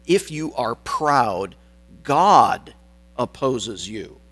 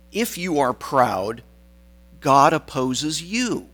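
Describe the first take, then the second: First: GOD punched louder, set apart by pauses; slow build to a hard GOD, then drop on "opposes you"; stress on GOD. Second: YOU drawn out and raised, then falling; stress on YOU. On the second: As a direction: lean on the final YOU in "opposes you". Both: Shown as a demonstration. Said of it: "I put the emphasis on the wrong word there".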